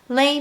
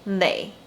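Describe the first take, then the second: First: The syllable is said with a higher pitch. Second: The syllable is said with a lower pitch. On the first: It asks what about or where is something. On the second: It contradicts what someone else thinks.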